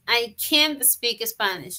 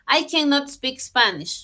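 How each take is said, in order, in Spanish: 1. La negación se contrae a una sílaba, can't. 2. La negación se dice completa como cannot. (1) "en su forma corta" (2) "en su forma larga"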